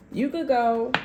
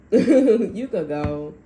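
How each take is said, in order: First: Lightly voiced cold brush-off; mock dismissive partner. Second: Laughing it out, slow and loud. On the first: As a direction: toss it off like you don't care. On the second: Retold or imitated. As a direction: repeat the line through a laugh, drawn out. Laughing repeat of quote.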